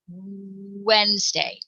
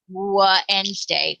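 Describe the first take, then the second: First: The word starts directly with a rounded 'w'. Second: An extra 'wa' syllable comes before the word. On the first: The speaker calls it right. "We say water, Wednesday" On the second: The speaker calls it wrong. "we don't say wa otter, wa Wednesday"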